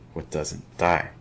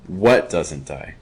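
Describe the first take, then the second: First: The stress is on "die". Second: The stress is on "what".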